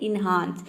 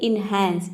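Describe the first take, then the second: First: The second vowel is an open 'a' as in father. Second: The second vowel is a front 'a' as in cat. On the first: The speaker calls it right. "ये होता है इनहांस" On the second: The speaker calls it wrong. "कई students इसको बोलते हैं इनहैंस, ये इनहैंस नहीं होता है"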